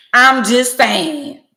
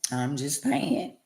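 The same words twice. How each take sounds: First: High, loud and slow; loud drawn-out. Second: Slow, soft, drawn out; quiet drawn-out. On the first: Shouting her catchphrase at viewers, high and slow. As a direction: belt it out, stretching each word. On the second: Murmuring her catchphrase to viewers, slow and soft. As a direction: let it trail low and slow. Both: Real, not acted.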